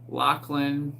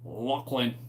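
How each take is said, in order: First: It is said in an ordinary, non-Scottish accent. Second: It is said in a deep Scottish accent. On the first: "Everyone pronounce Lachlan" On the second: "In that deep Scottish voice"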